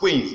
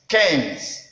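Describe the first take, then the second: First: It sounds like the English word 'queens'. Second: It does not sound like English 'queens'. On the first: The speaker calls it wrong. "they pronounce this fifteen in French as queens" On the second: The speaker calls it right. "the best way and normal way to pronounce it is quinze"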